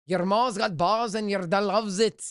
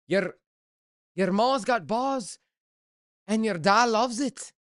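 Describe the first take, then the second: First: Rolled R's, a hammed-up Scottish try; mock Scottish accent. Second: Mock Scottish accent. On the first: Streamer trying a Scottish accent for a chat viewer, rolled R's. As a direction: roll the R's in "ma's" like a Scot. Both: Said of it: "they roll the R's".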